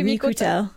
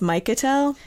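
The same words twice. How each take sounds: First: The name is said with a Polish pronunciation. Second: The name is said with an English pronunciation. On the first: The speaker calls it right. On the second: The speaker calls it wrong.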